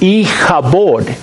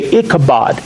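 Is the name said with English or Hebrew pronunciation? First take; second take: Hebrew; English. First: It is said with the Hebrew pronunciation. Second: It is said with the usual English pronunciation. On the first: "That's the way it's pronounced in Hebrew" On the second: "we say Ichabod"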